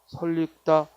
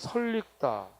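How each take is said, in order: First: An extra l sound is inserted, giving double l. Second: The l sound links straight into the next syllable. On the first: The speaker calls it right. "첨가해서 설익다 하고 리을 리을로 발음해야 되고" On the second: The speaker calls it wrong. "설익다라고 발음하기 쉬운데"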